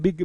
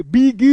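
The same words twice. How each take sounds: First: Said in the usual way. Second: बिग stretched loudly into two long syllables; wrongly drawn out. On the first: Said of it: "सब ऐसे ही बोलते हैं". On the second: Shown as a demonstration. Teacher showing what nobody can say, overdrawn बिग. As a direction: exaggerate बिग as a loud, long "bee-geee". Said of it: "ये तो हम बोल ही नहीं सकते".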